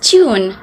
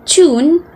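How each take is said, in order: First: British accent, a 'y' glide before the vowel. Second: American accent, a plain 'oo' vowel without glide. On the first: "but in British, it was pronounced as tune" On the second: "in standard American English, it was actually pronounced as tune"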